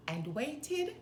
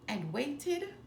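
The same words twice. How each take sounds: The two takes are said the same way.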